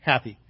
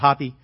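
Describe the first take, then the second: First: The first vowel sounds like the one in 'hat'. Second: The first vowel sounds like the one in 'hot'. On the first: "What a wonderful name, Happy" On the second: "some people pronounce it Hoppy"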